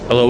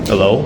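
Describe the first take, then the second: First: The voice sounds normal, without room amplification. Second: The voice sounds amplified and resonant from the room. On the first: "this sounds normal" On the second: "how amplified my voice is gonna get"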